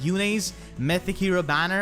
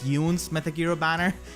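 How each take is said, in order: First: The name does not rhyme with June. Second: The name rhymes with June. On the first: This is the name as said in the older game's cutscenes. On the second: This is the name as said in the newer game.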